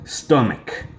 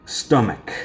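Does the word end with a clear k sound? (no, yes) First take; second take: yes; yes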